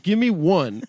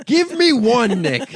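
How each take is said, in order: First: Loud, high insistent demand. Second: Very loud, very high shout; exasperated full-out shouted demand. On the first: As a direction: demand it with voice raised. Demanding an impression from Nick. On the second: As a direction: yell it as a challenge, voice soaring. Repeats the demand, escalating. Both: Real, not acted.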